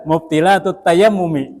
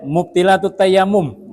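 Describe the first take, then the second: First: The last word ends with a final i vowel. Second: The last word ends on m without a vowel. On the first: The reader knows Arabic grammar. The speaker calls it right. "ah sudah jelas" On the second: The reader does not know Arabic grammar. The speaker calls it wrong. "nah itu meragukan itu"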